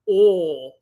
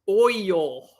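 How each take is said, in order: First: It is said in a Southern US accent. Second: It is said in a Northern US accent. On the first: Local southerners say it this way. The speaker calls it wrong. "people down south... they can't say oil. They say oil" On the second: People up north say it this way. The speaker calls it right. "It's oil"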